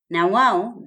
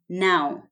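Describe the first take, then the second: First: It is said as two full words. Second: It is said as one contracted word. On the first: "Na wao becomes now" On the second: "Na wao becomes now"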